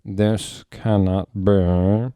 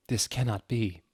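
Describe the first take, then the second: First: Slow, loud, clipped disbelief; crisp voice. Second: Said in the usual way. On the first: Acted. Snape refusing to believe it, crisply. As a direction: bite each word off. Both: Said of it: "in a crisp voice".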